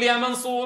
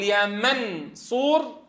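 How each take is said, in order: First: "يا منصور" with a plain, clearly released ن; crisp ن in "منصور"; clear n sound. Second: "يا منصور" said slowly with a long nasal hum on ن; long nasal ikhfa. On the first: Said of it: "ولا تقول". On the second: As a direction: draw out the hidden ن in "منصور". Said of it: "هل الأيسر أن تقول". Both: Shown as a demonstration.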